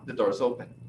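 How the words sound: It is said with an American accent. The speaker calls it right. "O americano vai falar"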